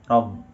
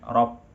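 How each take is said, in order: First: The final consonant is a soft B sound. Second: The final consonant sounds like a P. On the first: The speaker calls it right. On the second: The speaker calls it wrong.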